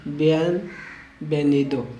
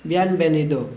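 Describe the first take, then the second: First: "बियनवेनिदो" slowly in two parts, v as B; slow breakdown. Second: Said in the usual way. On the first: Shown as a demonstration. Teacher breaks the welcome word down for learners, slowly. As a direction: split "बियनवेनिदो" after बियन, slow and softer.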